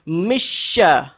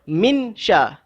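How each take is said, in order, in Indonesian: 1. Bunyi n menyatu sepenuhnya ke dalam bunyi sh. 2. Bunyi n diucapkan dengan jelas sebelum sh. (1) "Itu idgham"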